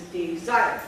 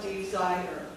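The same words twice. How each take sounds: First: DESIRE in two beats, de-ZIRE, loud on the second; correct pronunciation. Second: DESIRE broken up, with "-ire" stretched into I-er; wrong pronunciation. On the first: Teacher correcting to two syllables, correct pronunciation. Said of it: "It is desire". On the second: Teacher showing what it is not, wrong pronunciation. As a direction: say "desire" slowly with an extra beat, de-si-er. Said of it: "it is not desire". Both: Shown as a demonstration.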